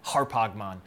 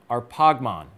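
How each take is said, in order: First: The word begins with an h sound. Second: The word begins with a vowel, without h.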